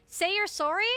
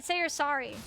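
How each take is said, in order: First: "sorry" with the vowel of "sore", a touch higher; "sorry" the Canadian way, "sore-ee". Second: "sorry" with an open "sah" vowel; "sorry" the American way, "sah-ree". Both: Shown as a demonstration. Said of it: "I said sorry in two different pronunciations".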